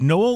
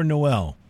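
First: "Noel" as NOH-ul, weight on the start; Noel stressed on first syllable. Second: "Noel" as noh-EL, weight on the end; Noel stressed on second syllable. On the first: Host checks the guest's surname, Noel stressed up front. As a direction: say "Noel" with a light, reduced ending. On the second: Host offers guest another surname option, Noel stressed at the end. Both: Shown as a demonstration. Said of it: "Josh, is it Noel or Noel".

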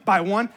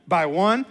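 Both takes have the same delivery.

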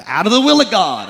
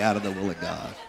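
First: "Out of the will of God" thundered, faster and louder; hammed-up holy indignation; mock preaching outrage. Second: "out of the will of God" repeated softly through a chuckle; half-laughing afterthought. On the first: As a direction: preach it like a fire-and-brimstone warning. Mock-preaching about young couples. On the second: Pretend. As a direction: take the bite out with a laugh. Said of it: "I say".

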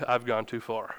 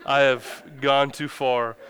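First: Low, soft retold admission; hushed realization. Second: "I have gone too far" slow and deliberate; emphatic realization. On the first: Husband under his wife's glare, hushed sheepish realization. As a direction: drop your voice as it dawns on you. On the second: Retold or imitated. Husband fighting over a kid's water, "I have gone too far" slowly emphasized.

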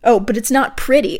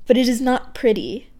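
First: Said in the usual way. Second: Deliberate recital of a corrected line; poem reading. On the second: Acted. Poet rereading a line she misread, deliberate poem voice. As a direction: read the line properly, back in poem voice. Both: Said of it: "I misread my own poem there".

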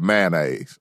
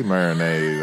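First: Mayonnaise squeezed to "MAN-aze"; other pronunciation. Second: Mayonnaise as "MARE-uh-naze"; own pronunciation. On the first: Co-host showing the other way, mayonnaise as "man-aze". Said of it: "The other way is mayonnaise". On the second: Co-host defending their pronunciation, mayonnaise as "mare-uh-naze". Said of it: "that's how you say mayonnaise". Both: Shown as a demonstration.

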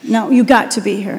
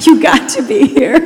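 First: Said in the usual way. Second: Laughing through "You got to be here", a touch higher; laughing correction. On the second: Real, not acted. Pastor laughing as she corrects herself to the congregation, amused. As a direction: laugh it off while fixing the slip. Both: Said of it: "That did not come out right".

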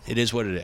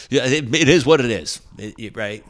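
First: Said in the usual way. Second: Higher, louder mock of the booker; hammed-up dismissive booker. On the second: Booker's dismissive reply imitated.

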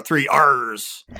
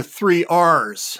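First: Slow, low growly pirate "three R's". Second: Said in the usual way. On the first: Shown as a demonstration. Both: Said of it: "I like to do it in my pirate voice".

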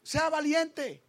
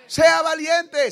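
First: Said in the usual way. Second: Slow, much louder shout of the words "Sea valiente"; preacher shouting "Sea valiente" at the congregation; shouted exhortation. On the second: Shown as a demonstration. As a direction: bellow "Sea valiente" slowly at the crowd. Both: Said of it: "repeated louder as exhortation".

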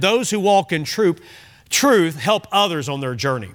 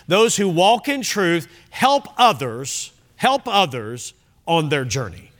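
First: Said in the usual way. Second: "help others" slowed and repeated for weight; emphatic repetition. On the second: Real, not acted. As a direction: state it slowly, leaning on "help others". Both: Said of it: "I wanna really emphasize that".

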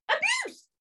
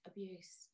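First: Very high-pitched squeal of disbelief; incredulous outburst. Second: Very quiet, low echo; stunned repeat. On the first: Passenger echoing the worker's accusation of abuse, incredulous. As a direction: throw the word back in a squeaky outraged pitch. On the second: Passenger repeating the worker's accusation, quietly incredulous. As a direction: drop it right down under your breath. Deadpan repeat after the squeal. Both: Retold or imitated.

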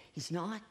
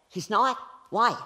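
First: Soft, tentative question; mild tearful disbelief. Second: Louder, higher mock outrage; indignant disbelief. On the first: Retold or imitated. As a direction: ask it quietly, unsure. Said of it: "She was sobbing". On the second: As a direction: demand it, offended and incredulous. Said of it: "they're mad. And they're going like".

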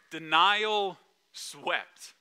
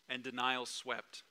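First: Denial swept drawn out very slowly, each word lingered on; slow rhyme. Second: Said in the usual way. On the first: Shown as a demonstration. Preacher teasing the congregation, savouring Denial swept slowly. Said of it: "No more rhymes". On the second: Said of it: "That's the last rhyme".

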